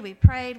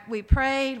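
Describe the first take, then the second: First: "prayed" pushed out much louder; emphatic repeat. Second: Said in the usual way. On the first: Real, not acted. Insisting to the church how hard they prayed, loud emphatic repeat. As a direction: lean hard into "we prayed" the second time.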